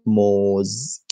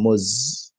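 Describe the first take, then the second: First: Moz with a long, drawn-out o; long-vowel pronunciation. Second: Muz with a short, quick u; short-vowel pronunciation. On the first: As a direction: stretch moz into "mohhz". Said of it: "it's a different pronunciation". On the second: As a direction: say muz briefly, rhyming roughly with "puts". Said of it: "not moz". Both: Shown as a demonstration.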